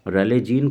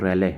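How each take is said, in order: First: The name is said with three syllables. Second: The name is said with two syllables. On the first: The speaker calls it wrong. "रेलेजीन को हम लोग रैले पढ़ते हैं" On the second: The speaker calls it right. "इसका जो सही pronunciation है वो रैले है"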